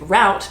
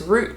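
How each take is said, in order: First: The word is pronounced the American way. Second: The word is pronounced the Australian way. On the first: The speaker calls it right. "I go with route ... now I use the American" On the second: The speaker calls it wrong. "route means something a bit more nefarious"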